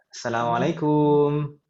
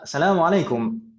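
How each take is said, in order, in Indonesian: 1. Diucapkan dengan logat Indonesia. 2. Diucapkan dengan logat Arab. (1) "Kalau kita"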